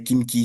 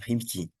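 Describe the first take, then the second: First: The name is said with a French opening sound. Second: The name is said with a non-French opening sound.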